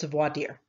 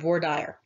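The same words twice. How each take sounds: First: It is said the way other regions say it. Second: It is said the regional Texas way. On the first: "if you go to other parts of the country, it's voir dire" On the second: "because I went to school in Texas, uh, everybody pronounces it here voir dire"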